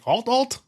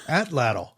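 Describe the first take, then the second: First: The word is said as 'alt' twice. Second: The word starts with 'at', then 'latl'. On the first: The speaker calls it wrong. "We were way off" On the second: The speaker calls it right. "what is it actually? We looked this up"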